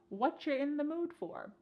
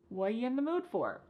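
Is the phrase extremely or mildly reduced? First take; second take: mildly; extremely. First: The words are mildly reduced and run together. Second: The words are extremely reduced and squeezed together. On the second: "This is extremely reduced"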